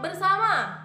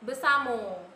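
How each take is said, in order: First: It ends in an a sound, with r kept. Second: It ends in an o sound.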